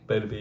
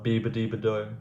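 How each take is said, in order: First: The name is short, with few syllables. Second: The name is long, with several rhyming syllables. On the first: The speaker calls it right. "that sounds right" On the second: The speaker calls it wrong. "before I used to pronounce it like"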